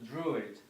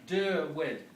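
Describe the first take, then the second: First: The name begins with a 'droo' syllable. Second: The name begins with a 'der' syllable. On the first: This is a later corrupted form. The speaker calls it wrong. "It's mispronounced as Druid" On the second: This is the original name. The speaker calls it right. "they were known as Derwid"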